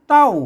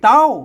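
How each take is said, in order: First: The syllable is said with the tho tone. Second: The syllable is said with the tri tone. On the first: "เสียงโทโทไทยโทเต้า" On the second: "เสียงตีเต้า"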